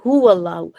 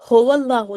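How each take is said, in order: First: The first vowel is a rounded 'oo' sound. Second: The first vowel is an 'oh' sound. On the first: The speaker calls it right. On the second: The speaker calls it wrong.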